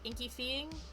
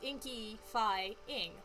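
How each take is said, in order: First: The third syllable sounds like 'fee'. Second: The third syllable sounds like 'fie'. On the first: The speaker calls it wrong. "That sounded horrible" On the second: The speaker calls it right. "the same way that you pronounce like terrifying"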